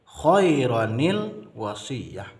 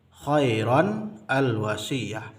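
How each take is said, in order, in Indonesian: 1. Kedua kata disambung dengan bunyi 'i' penyambung. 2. Kedua kata tetap terpisah tanpa bunyi 'i' penyambung. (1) "Kita gabung, kita wasal" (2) "Awalnya kan khairan al-wasiyah"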